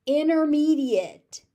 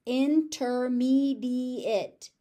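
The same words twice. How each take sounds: First: "Intermediate" as inner-MEE-diate, loud, no T; dropped T. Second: "Intermediate" slowly with a clear T in "inter"; pronounced T. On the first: Teacher modelling everyday pronunciation, silent T. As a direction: drop the T from "Intermediate". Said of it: "The T just disappears". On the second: Teacher showing the careful form, pronounced T. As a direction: sound out every syllable of "Intermediate", T included. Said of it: "I'm gonna pronounce that T". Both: Shown as a demonstration.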